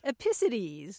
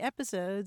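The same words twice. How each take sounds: First: The stress falls on a shifted syllable. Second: The stress falls on the usual syllable. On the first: The speaker calls it wrong. "putting the emphasis on the wrong syllable" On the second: The speaker calls it right. "mispronouncing episodes"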